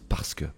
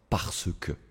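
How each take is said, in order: First: The E in parce is dropped entirely. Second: The E in parce is clearly pronounced. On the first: "ils disent parce que; le E là, il va vraiment disparaître" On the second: "ils ne disent pas parce que"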